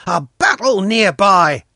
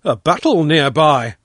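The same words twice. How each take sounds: First: Put-on high, loud boy's alarm; excited cry. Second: Loud echo, only slightly raised in pitch; echoed exclamation. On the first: Pashka hearing shots behind the grove, high loud cry. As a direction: cry out the news, pitched high. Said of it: "Pashka cried". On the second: Father echoing Pashka's news, loud exclamation. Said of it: "I echoed". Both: A narrator's reading.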